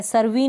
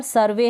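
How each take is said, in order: First: सर्वी ending in "ee" instead of "ay"; wrong-reading demo, सर्वी with an ee ending; mispronounced final vowel. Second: Said in the usual way. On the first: Shown as a demonstration. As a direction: say सर्वी as "sur-vee". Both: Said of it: "सर्वी नहीं होगी".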